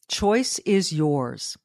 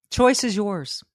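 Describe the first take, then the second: First: Slowed way down, weighing choice; slow, deliberate. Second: Said in the usual way. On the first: Shown as a demonstration. Host driving the point home, slow and deliberate. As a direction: let each word land slowly.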